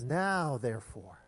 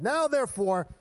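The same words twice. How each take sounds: First: Said in the usual way. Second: Loud, raised, hammed-up preacher voice; good preacher's accent. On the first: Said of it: "'cause he's a good preacher". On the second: Pastor voices the verse as a good preacher, mock accent. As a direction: proclaim it in a put-on preacher accent. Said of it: "I don't know what accent he had".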